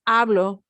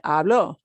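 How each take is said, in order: First: The stress is on the first syllable. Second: The stress is on the last syllable. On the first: I am speaking right now. "putting a punch on this, hablo, is talking about myself right now" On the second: Someone else spoke in the past. "punch the end"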